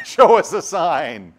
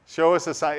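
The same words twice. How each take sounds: First: Mocking disbelief. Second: Said in the usual way. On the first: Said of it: "What do you mean". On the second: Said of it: "Jesus will reply".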